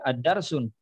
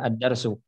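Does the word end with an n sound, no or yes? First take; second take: yes; no. First: The word ends with an n sound. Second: The word ends in a vowel, no n. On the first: The speaker calls it wrong. "tidak boleh dibaca ad-darsun" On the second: The speaker calls it right. "Tanwinnya harus di dibuang"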